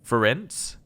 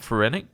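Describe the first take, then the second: First: The name ends like the end of 'circumference'. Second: The name does not end like 'circumference'. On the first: The speaker calls it right. "Apparently meant to say it like the end of circumference" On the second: The speaker calls it wrong. "I've been saying this wrong"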